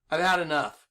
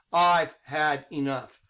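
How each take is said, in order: First: Said in the usual way. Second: Slow, lower, every word laid down; drawn-out, fed-up declaration; slow and deliberate. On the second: Shown as a demonstration. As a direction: say it slowly like a final warning. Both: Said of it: "I'm gonna speak like this".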